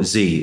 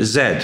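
First: The letter is said the American way, 'zee'. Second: The letter is said the British way, 'zed'.

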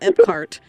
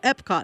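First: The second syllable sounds like 'cart'. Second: The second syllable sounds like 'cot'. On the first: The speaker calls it wrong. "not Epcart" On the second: The speaker calls it right. "so Epcot"

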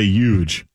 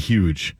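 First: The word starts without an h sound. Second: The word starts with an h sound. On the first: "the first I ever heard to say huge" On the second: "as opposed to huge"

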